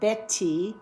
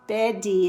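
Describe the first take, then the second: First: The middle T is a crisp voiceless stop. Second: The middle T is a quick voiced flap. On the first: "instead of Betty" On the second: "often we say Betty"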